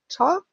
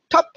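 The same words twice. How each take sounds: First: It is said in a doubtful, hesitant way. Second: It is said in an even, neutral way. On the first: The trainer is unsure whether the behaviour deserves a reward. "soll ich oder soll ich nicht, dann hört sich das dann nicht mehr so an" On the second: The reward marker is given the same way every time. "jedes Mal zu sagen, top, top, top, egal wie der Hund das macht"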